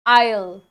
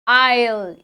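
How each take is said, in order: Both takes have the same delivery.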